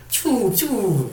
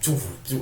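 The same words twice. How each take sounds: First: Slow, high "choo, choo" blaster zap; vocal blaster sound, drawn out and high; imitated blaster. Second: Soft, quick "choo, choo" zap; vocal blaster sound, quieter and flat; generic blaster imitation. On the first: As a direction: voice the classic laser shot. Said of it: "such a distinct, you know, choo, choo sound". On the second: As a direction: voice a bland laser shot. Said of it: "but these are more like choo". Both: Shown as a demonstration.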